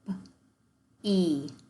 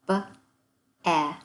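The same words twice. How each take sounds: First: The vowel is sounded as a long e. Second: The vowel is sounded as a short e. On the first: The speaker calls it right. "we pronounce it" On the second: The speaker calls it wrong. "that word does not make those sounds"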